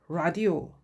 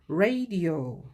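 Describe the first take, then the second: First: The first vowel is an open 'ah' sound. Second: The first vowel is an 'ay' sound. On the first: "이건 영국식 발음이고요" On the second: "A를 A 발음을 내면서 읽어주시면 됩니다"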